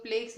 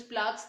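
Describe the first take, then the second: First: प्लेक्स said with a long "ay" vowel; alternative pronunciation. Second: प्लाक्स said with a long "aa" vowel; alternative pronunciation. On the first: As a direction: say प्लेक्स to rhyme with "flakes". (प्लेक्स, "ए" की आवाज़ वाला उच्चारण) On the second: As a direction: say प्लाक्स with an open "aah" in the middle. (प्लाक्स, "आ" की आवाज़ वाला उच्चारण) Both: Shown as a demonstration. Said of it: "दोनों pronunciation ठीक है".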